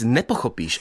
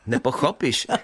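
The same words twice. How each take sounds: First: The stress is on the first syllable. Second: The stress is on the second-to-last syllable. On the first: This is standard Czech. The speaker calls it right. "Měla byste říct" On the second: This follows the Polish-like regional pattern. The speaker calls it wrong. "a ne"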